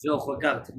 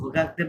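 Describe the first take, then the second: First: "regarde" ending on a bare d, no "ay"; reduced final sound. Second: "regarder" with final "ay" sounded; base-form ending. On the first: Teacher correcting pupil's conjugation, "regarde" without final vowel. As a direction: stop "regarde" at the consonant. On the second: Teacher showing the wrong base form, "regarder" ending in "day". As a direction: end "regarder" on a clear "day". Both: Shown as a demonstration. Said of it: "not regarder বললে তো ভার্বের base ফর্মটা চলে আসছে".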